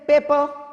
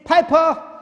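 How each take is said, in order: First: The word is said in an Indian accent. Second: The word is said in a British accent. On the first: "In India, we say paper" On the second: "in the U K and U S, they say Piper"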